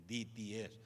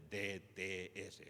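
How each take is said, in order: First: "D T S" as English "dee tee ess"; English letter names. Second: "D T S" slowly as "de, te, ese"; Spanish letter names. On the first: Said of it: "en Estados Unidos se conoce". ("D T S" en inglés: di, ti, es) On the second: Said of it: "se conoce el seminario más por D T S". ("D T S" en español: de, te, ese) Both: Shown as a demonstration.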